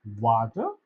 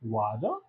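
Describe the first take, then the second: First: "water" low, with a sounded t; clear T. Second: "water" low, American-style, as "wader"; American accent. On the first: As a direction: say "water" as wa-ter, keeping the t. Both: Shown as a demonstration. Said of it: "टी को डा का".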